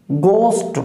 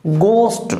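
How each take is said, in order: Both takes have the same delivery.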